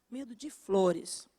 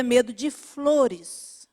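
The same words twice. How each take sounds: First: Repeated much softer, almost to herself; soft echo. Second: Said in the usual way. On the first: Shown as a demonstration. Preacher softly repeating the phobia, hushed. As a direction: drop the voice for the echo.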